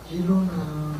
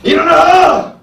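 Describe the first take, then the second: First: It is said softly, without shouting. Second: It is shouted loudly.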